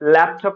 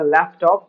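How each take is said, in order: First: The middle consonant is a clear p sound. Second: The middle consonant sounds like an f. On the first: The speaker calls it right. "ল্যাপটপ রে" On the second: The speaker calls it wrong. "পি সাউন্ডটা এফ এল লাখান pronounce হইতো"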